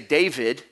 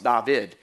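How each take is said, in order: First: The name is said the English way. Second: The name is said the Hebrew way. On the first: "we say David" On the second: "The name was actually pronounced David"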